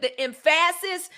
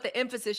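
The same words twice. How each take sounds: First: Emphasis said as em-FASS-is; stress on wrong syllable. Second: Said in the usual way. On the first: Shown as a demonstration. Host jokes about misplaced focus, stress on second syllable of emphasis. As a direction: punch the middle of emphasis, higher pitched. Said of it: "emphasis on the wrong syllable".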